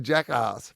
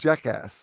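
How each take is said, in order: First: The last syllable sounds like long 'arse'. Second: The last syllable sounds like short 'ass'. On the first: This is how a local would naturally say it. "just as an Australian you want to say jackass" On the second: This is the official name of the movie. "but it's called Jackass"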